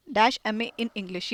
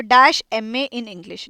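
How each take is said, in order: First: Slow, soft whisper of dash M A in English; whispered dictation. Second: Very slow, each word spaced out; slow dictation. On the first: Teacher repeating the example under her breath, whispered. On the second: Teacher dictating an example to students, very slow. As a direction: dictate it slowly for the class to copy. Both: Shown as a demonstration. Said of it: "देखो example देखो".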